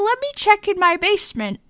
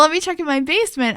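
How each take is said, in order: First: It is said in an odd put-on voice. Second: It is said in a plain natural voice.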